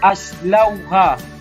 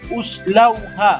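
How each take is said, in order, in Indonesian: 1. Kata ini diawali dengan vokal a. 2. Kata ini diawali dengan vokal u. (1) "Tak boleh kita baca aslauha" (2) "baca baris depan uslauha. Tak boleh"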